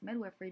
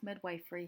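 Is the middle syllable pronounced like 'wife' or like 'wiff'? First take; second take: wiff; wife. First: The middle syllable sounds like 'wiff'. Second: The middle syllable sounds like 'wife'. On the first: The speaker calls it right. "it's actually pronounced" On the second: The speaker calls it wrong. "commonly pronounced"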